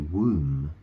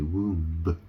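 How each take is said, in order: First: The word ends without a B sound. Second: The word ends with an audible B sound. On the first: The speaker calls it right. "I suppose it's silent, isn't it? You, you say womb" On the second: The speaker calls it wrong. "You don't say womb, really"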